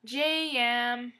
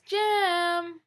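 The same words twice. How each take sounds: First: "J M." said slowly as two separate syllables; drawn-out Jem. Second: "Jem." stretched high into two syllables, like Je-em. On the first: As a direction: spell out "J M." as two beats. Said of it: "Say it like this". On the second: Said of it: "like this". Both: Shown as a demonstration.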